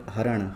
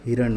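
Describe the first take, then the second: First: हरण with a short a after ह; हरण, opening on ha instead of hi; misspelt reading. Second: Said in the usual way. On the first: Shown as a demonstration. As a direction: say हरण without the i vowel. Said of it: "हरण नहीं होता है". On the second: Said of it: "हिरण होता है".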